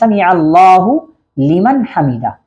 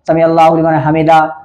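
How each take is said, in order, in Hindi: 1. यह वाक्यांश सावधानी से बोला गया है, हर आवाज़ साफ़ उच्चारित है। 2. यह वाक्यांश लापरवाही से बोला गया है, आवाज़ें बिगड़ी हुई हैं। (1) "असल लफ्ज़ है" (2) "लोग इस तरीके से कहते हैं अजीब-अजीब अल्फाज़ों में"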